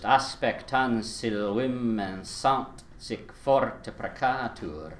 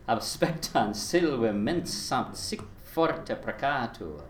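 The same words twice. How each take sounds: First: Aspectan silvimensant sic forte precatur, slow, beat by beat; scanned by beats. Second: Aspectan silvimensant sic forte precatur with word stress, slow; word accents. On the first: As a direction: slowly tap out each metrical beat. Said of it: "if I do it with the beats first". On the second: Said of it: "and then with the accents". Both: Shown as a demonstration.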